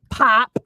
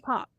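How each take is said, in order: First: Both P sounds are strongly over-enunciated. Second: Both P sounds are said plainly and naturally. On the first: The speakers are not used to saying this word. The speaker calls it wrong. "they over enunciate the plosive consonant of both P's. And like pop" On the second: This is how locals casually say it. The speaker calls it right. "you can just say pop"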